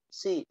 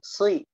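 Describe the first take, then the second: First: The s sound is light and low. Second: The s sound is heavy and raised. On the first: It turns into the plain letter sin. The speaker calls it wrong. "Jangan bacanya si, si, si" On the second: It keeps the emphatic letter sad. The speaker calls it right. "Tapi tetap naikin"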